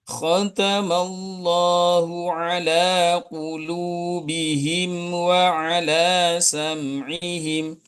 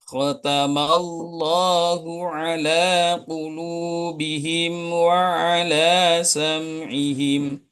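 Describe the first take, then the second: The two takes are said the same way.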